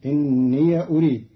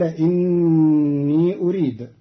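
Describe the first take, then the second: First: إني as inniya before أريد; fatha on the ya. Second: إني as long innii before أريد; still ya, lengthened. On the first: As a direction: say إني with a short ya at the end, unstretched. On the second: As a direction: stretch the final i of إني into أريد. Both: Shown as a demonstration. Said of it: "بفتح ياء الإضافة".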